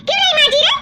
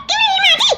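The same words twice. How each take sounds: First: Higher, sharp demanding question; scolding. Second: Much higher, sharper repeat of the question; shrill scolding. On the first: Sister-in-law demanding why the dishes are unwashed, angry. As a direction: push the question at her. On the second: Sister-in-law escalating at the girl over the dishes, shrill. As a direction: snap the question even higher. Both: Acted.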